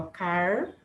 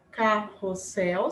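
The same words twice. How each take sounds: First: "carrossel" said as car... ros... sel, with pauses; split into syllables. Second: Said in the usual way. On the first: Shown as a demonstration. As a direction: separate each syllable of "carrossel". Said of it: "vai ficar assim". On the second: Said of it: "se eu for separar a sílaba".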